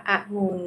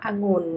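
First: อะงุ่น split as อะ-งุ่น; syllable-by-syllable reading. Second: Said in the usual way. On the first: Shown as a demonstration. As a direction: sound out อะงุ่น in two syllables. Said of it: "อ่านว่าอะงุ่น". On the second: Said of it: "คำว่าองุ่น".

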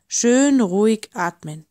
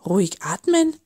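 First: Lightly voiced, unhurried reef perch; serene reassurance. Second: Mild sceptical huff, rising at the end; huffed question. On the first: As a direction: gently coach someone to breathe, firm on "Schön". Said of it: "seelenruhig der Riffbarsch". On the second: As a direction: echo the advice in doubt, lightly acted. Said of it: "schnaufte der Oktopus". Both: A narrator's reading.

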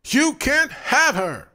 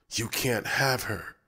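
First: High, loud, slow scream. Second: Snarl. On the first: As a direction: scream it possessively. David swings the lamp. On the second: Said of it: "David snarled". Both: A narrator's reading.

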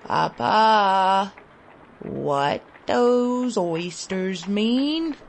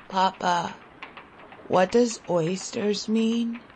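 First: Put-on weak child pleading again, slowly; child repeating question. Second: Put-on weak, husky child's question. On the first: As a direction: drag the question out, faint and hungry. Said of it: "I repeated". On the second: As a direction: ask faintly, voice husky from hunger. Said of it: "I asked in a husky voice".

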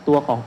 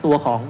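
No difference in how they are said.

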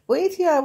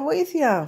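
First: Shouted high and loud for help; first, loudest call for help; cry for help. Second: Second shout for help, still loud and high; echoing call for help; repeated cry for help. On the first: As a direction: yell it out in a panic. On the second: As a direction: call out again, a little less high. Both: Acted. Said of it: "φώναξε ο γάτος".

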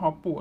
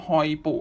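First: "ฮอปปุ" with a short stopped "hop"; simplified pronunciation. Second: "ฮอยปุ" with a gliding "hoi" first syllable; Japanese pronunciation. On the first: Host gives his own name for it, "ฮอปปุ" said as hop-pu. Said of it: "แต่ผมขอเรียกว่า". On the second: Host reads out the Japanese name, "ฮอยปุ" said as hoi-pu. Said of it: "ออกเสียงภาษาญี่ปุ่นหมายว่า". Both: Shown as a demonstration.

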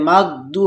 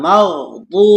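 First: মাগদু with a plain d, the wrong way; wrong dad. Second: মাগদু with a heavy dad and clear ghain; correct dad. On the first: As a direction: say মাগদু with a light d. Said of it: "হবে না". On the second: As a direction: say মাগদু with a full emphatic d. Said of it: "দদ উচ্চারণ হবে". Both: Shown as a demonstration.

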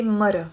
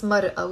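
First: Mara run smoothly together, no break before the last a; "mara" as ma-ra, without a glottal stop; Lebanese pronunciation. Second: Mar'a with a break before the final a; "mar'a" as mar, then a separate a; written-form pronunciation. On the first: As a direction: say "mara" the Lebanese dialect way, short and joined. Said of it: "we say mara". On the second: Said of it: "we don't pronounce mar'a". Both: Shown as a demonstration.

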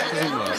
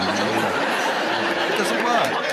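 First: Said in the usual way. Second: Stretched slow words through laughter; slow laughing verdict. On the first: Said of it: "repeated verdict". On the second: Real, not acted. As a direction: laugh while saying it doesn't work. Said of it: "host laughing verdict".

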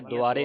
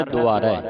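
First: ਦੁਆਰੇ ending in a close "ay"; wrong final vowel. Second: ਦੁਆਰੈ loud, ending in an open "ai"; correct open vowel. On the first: Teacher shows the misreading, ਦੁਆਰੇ with narrow "ay" ending. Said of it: "ਦੁਆਰੇ ਨਹੀਂ ਪੜ੍ਹਨਾ". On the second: Teacher gives the proper reading, ਦੁਆਰੈ with open "ai". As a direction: stress the wide final vowel of ਦੁਆਰੈ. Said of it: "ਇਸ ਦਾ ਉਚਾਰਨ ਹੈ". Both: Shown as a demonstration.

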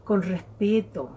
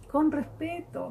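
First: Said in the usual way. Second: Con respeto lifted high and gentle; soft high echo of con respeto; higher, softer repeat. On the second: Shown as a demonstration.

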